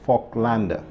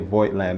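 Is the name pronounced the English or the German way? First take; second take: German; English. First: The name is pronounced the German way. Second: The name is pronounced the English way. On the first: The speaker calls it right. "the correct pronunciation, to the best of my ability" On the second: The speaker calls it wrong. "I'm still going to probably say Voigtlander"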